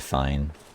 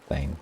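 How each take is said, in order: First: The vowel rhymes with the word fine. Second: The vowel rhymes with the word rain. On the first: This is how most people pronounce it. "most people say fine" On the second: This is the speaker's own pronunciation. "I say Fane like rain"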